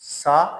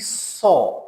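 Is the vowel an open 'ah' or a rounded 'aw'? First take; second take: open ah; rounded aw. First: The vowel is an open unrounded 'ah'. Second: The vowel is a rounded 'aw' sound. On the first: The speaker calls it wrong. "this is not sa" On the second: The speaker calls it right. "it is actually saw"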